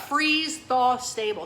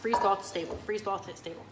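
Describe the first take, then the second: First: FREEZE THAW STABLE drawn out slowly and loudly; slow, careful phrase. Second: "Freeze thaw stable" rattled off quickly, stumbling; fast tongue twister. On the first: Presenter repeating a product term to the crew, slow and careful. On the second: Presenter trying to say it three times fast, quick and fumbling. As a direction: race through "Freeze thaw stable" and trip on it. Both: Shown as a demonstration. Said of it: "Say that three times fast".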